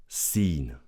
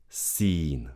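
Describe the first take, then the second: Both takes have the same delivery.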